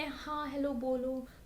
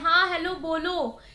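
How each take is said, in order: First: It is said very quietly and softly. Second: It is said very loudly, almost shouting. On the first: "बहुत धीरे बोले" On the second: "बहुत तेज से चिल्ला के बोल"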